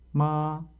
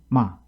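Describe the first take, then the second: First: The syllable is said with a level tone. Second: The syllable drops sharply and is cut short. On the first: "일 승 예를 보겠습니다" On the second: "여섯 번째 육 성은"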